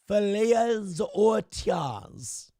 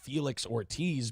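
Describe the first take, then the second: First: The name is said with an exaggerated Spanish accent. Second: The name is said with a plain American accent. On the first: The speaker is overthinking the name to avoid shame.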